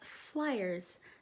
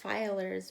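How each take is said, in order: First: The word begins with the sound 'fly'. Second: The word begins with the sound 'fill'. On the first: The speaker calls it right. "That's flyers" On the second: The speaker calls it wrong. "I just realized I mispronounced that"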